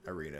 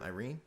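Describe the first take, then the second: First: "Irina" with the final A sounded; final A pronounced. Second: "Irene" with the final A left silent. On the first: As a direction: settle on "Irina", ending in an open uh. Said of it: "I'm gonna go with Irina". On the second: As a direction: try "Irene" as a question, ending on the N. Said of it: "Or is the A silent?". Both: Shown as a demonstration.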